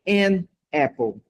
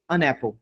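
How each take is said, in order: First: The two words are said separately. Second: The two words run together as one. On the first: The speaker calls it wrong. "tu não falaria an apple" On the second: The speaker calls it right. "Sairia an apple"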